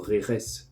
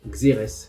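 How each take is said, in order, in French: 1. Il se prononce à l'espagnole. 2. Il se prononce à la française. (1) "si on prononce à l'espagnol" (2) "en français, on dit xérès"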